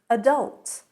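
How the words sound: It is pronounced the American way. "adult in American"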